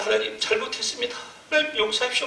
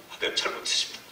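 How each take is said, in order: First: High pleading cry for forgiveness; wailing repentance. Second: Soft, breathless whispered confession; whispered repentance. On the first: Pastor begging God for forgiveness, high wailing cry. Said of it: "통곡이 나오는데". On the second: Pastor confessing to God after weeping, a soft whisper. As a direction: whisper it to God, spent from crying. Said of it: "막 우는 거예요". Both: Retold or imitated.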